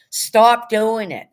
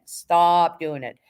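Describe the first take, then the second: First: Louder, higher, slow command; slow, loud, raised stop doing it; emphatic shout. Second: Said in the usual way. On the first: Real, not acted. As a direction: bark it out as a firm order.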